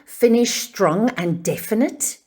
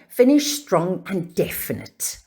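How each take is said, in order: First: The voice rises at the end. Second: The voice falls at the end. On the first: It sounds like an uncertain question. The speaker calls it wrong. "That's like me asking a question. That doesn't sound certain" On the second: It sounds certain and definite. The speaker calls it right. "So I'm going to say it again"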